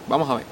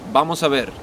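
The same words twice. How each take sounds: First: The S sounds are dropped. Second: The S sounds are kept.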